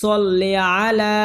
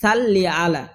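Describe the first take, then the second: First: The first vowel is a heavy, rounded 'o'. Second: The first vowel is a light, open 'a'. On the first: The speaker calls it right. "সহি হবে" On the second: The speaker calls it wrong. "অনেকে বলে"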